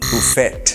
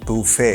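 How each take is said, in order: First: The final t is sounded. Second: The final t is silent. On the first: The speaker calls it wrong. "Not বুফেট" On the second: The speaker calls it right. "সেই টিটা silent টি"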